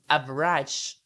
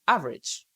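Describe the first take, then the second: First: The vowel after the first syllable is pronounced. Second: The vowel after the first syllable is dropped. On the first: The speaker calls it wrong. "you don't need to say different or average" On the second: The speaker calls it right. "we don't need to say this a"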